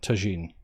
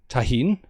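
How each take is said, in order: First: The middle consonant is a j sound. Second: The middle consonant is an h sound. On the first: This is the usual pronunciation in the UK. "I've never encountered a pronunciation that wasn't tagine" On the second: This follows the pronunciation suggested by others. "J is pronounced as H"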